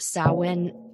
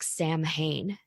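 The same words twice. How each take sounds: First: The word is said with the Irish pronunciation. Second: The word is read literally, letter by letter. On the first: The speaker calls it right. "in Irish it is pronounced Samhain" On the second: The speaker calls it wrong. "If you see it written out, it looks like Samhain"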